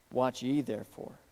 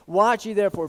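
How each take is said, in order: First: Said in the usual way. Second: Watch ye therefore pushed louder and higher; emphatic repetition. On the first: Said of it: "Did you catch the emphasis Jesus gives?". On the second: Shown as a demonstration. Pastor drives home Jesus' command to the church, loud emphatic. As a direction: hit Watch ye therefore hard.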